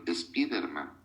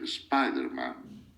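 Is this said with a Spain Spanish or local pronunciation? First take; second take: Spain; local. First: It is said with a Spain Spanish pronunciation. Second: It is said with the speaker's local pronunciation.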